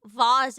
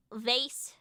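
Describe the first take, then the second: First: "Vase" rhyming with spas; vase as vahz. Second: "vase" ending in an S sound, rhymes with base; vase rhyming with face. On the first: Giving the nasty alternative, "Vase" said as vahz. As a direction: say "Vase" with an open AH and a Z. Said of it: "Vase if you're nasty". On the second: Weighing two pronunciations, "vase" said to rhyme with face. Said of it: "Do you say vase or vase?". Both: Shown as a demonstration.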